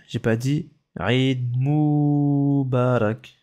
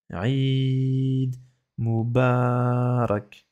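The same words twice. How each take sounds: First: Aïd Moubarak with a short Aïd, the mistake to avoid; Aïd Moubarak said without the long vowel; wrong take. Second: Aïd with its vowel held long, then Moubarak said very slowly; Aïd drawn out, Moubarak syllable by syllable. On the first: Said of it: "Attention, j'ai pas dit". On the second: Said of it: "la prolongation elle est là". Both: Shown as a demonstration.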